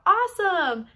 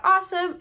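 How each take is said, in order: First: Loud, high "Awesome!" with a falling end; shouted call. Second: Loud, high "Awesome!" called out; shouted call. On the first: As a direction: belt out "Awesome!" to the class. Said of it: "you're gonna shout out". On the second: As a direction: shout "Awesome!" to grab the class. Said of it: "You're just gonna shout out". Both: Shown as a demonstration.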